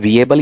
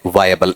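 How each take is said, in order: First: The first syllable sounds like 'vee'. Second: The first syllable sounds like 'vy'. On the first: The speaker calls it wrong. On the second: The speaker calls it right.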